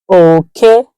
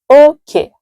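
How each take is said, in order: First: It carries the tone pattern meaning rat. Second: It carries the tone pattern meaning boundary. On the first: The word means rat. "that is rat" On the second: The word means boundary. "that is boundary"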